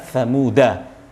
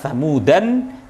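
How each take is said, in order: First: The word ends on a plain vowel. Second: The word ends with an added n sound. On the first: "bisa Samuda" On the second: "ada dua dua dua bacaan"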